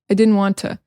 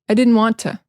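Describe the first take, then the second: First: The T in didn't is dropped. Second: The same.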